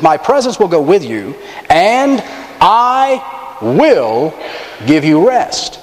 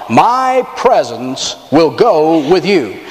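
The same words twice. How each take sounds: First: A lifted "and I", then held pauses before "will" and "give you rest"; paused emphasis. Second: Drawn out, every word weighed; slow solemn reading. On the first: Pastor re-reading the verse with dramatic pauses. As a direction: let the pauses carry the promise. God's promise re-read, pauses. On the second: Preacher slowly reading God's promise to the congregation, solemn. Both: Acted.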